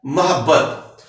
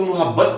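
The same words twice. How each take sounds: First: मोहब्बत said as "mahabbat" with a short a in the first syllable; मोहब्बत with a short a after the m; correct pronunciation. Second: मोहब्बत said as "muhabbat" with u in the first syllable; मोहब्बत with a rounded u after the m; wrong pronunciation. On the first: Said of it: "दुरुस्त तलफ़ुज़ है". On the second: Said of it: "इसको अक्सर लोग मोहब्बत पढ़ते हैं". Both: Shown as a demonstration.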